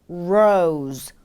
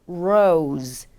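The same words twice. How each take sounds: The two takes are said the same way.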